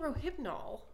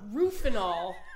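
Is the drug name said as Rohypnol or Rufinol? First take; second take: Rohypnol; Rufinol. First: The word is said as Rohypnol. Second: The word is said as Rufinol. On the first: The speaker calls it right. "it's fucking Rohypnol" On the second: The speaker calls it wrong. "you see people saying Rufinol all the time"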